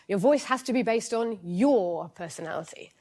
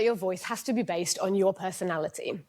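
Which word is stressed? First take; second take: your; personality. First: The stress falls on the word your. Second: The stress falls on the word personality. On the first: The personality must be the organization's own. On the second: The voice must come from a personality.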